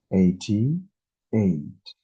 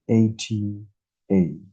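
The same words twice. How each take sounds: The two takes are said the same way.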